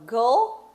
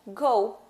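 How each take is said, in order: First: "go" said as "goal", with an L ending; final L pronounced. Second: "go" left open on a U glide; U ending. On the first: Teacher repeating the contrast, L ending first. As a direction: add a clear L to close "go". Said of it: "a outra é o som do L". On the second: Teacher repeating the contrast, U ending second. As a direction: end "go" with rounded lips, no L. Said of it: "Um é o som do U". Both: Shown as a demonstration.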